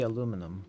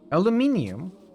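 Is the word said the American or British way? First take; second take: American; British. First: Four syllables, with an American accent. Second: Five syllables, with a British accent. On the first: "The American would be aluminum" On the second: "is that the British spelling and pronunciation?"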